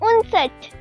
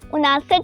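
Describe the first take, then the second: First: It has two syllables with no long a. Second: It has three syllables with a long a. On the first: The speaker calls it right. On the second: The speaker calls it wrong.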